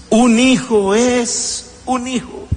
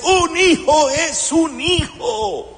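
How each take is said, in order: First: Slow, stress on hijo; emphatic repeat. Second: Slow and high, each word weighed; slow emphatic line. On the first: Preacher repeating to the congregation, emphatic stress on hijo. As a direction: land on hijo, pulled long. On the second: Preacher to congregation, slow emphatic line. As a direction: lean hard on un hijo, drawn out. Preacher stresses key phrase. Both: Acted.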